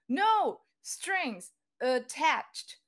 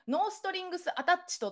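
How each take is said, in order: First: It is said as four English syllables. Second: It is said as thirteen Japanese syllables. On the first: The speaker calls it right. "よん音になっちゃうんですよね。英語だと。" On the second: The speaker calls it wrong. "日本語でノーストリングスアタッチトって"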